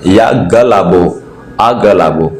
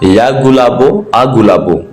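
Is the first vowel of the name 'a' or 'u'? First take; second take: a; u. First: The name begins with a 'ga' sound. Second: The name begins with a 'gu' sound. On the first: The speaker calls it right. "मैं सही बोल रहा हूं।" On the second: The speaker calls it wrong. "ये नहीं है"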